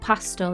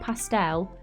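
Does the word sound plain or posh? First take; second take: plain; posh. First: It is said in a plain, everyday English way. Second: It is said in a posh, French-sounding way. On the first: "like fruit pastels" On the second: "that's like the posh version, or like putting a bit of like French on it"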